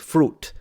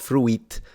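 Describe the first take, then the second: First: The i in the word is silent. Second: The i in the word is pronounced. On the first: The speaker calls it right. "you pronounce fruit" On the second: The speaker calls it wrong. "not fruit"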